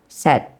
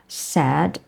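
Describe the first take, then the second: First: The vowel sounds Malay-accented. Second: The vowel sounds like standard English. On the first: "we say it the Malay way" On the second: "instead of saying it the English way"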